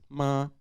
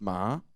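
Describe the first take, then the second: First: The pitch stays level and high. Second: The pitch rises through the syllable. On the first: "so it is a high tone" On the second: "it would be a raising tone"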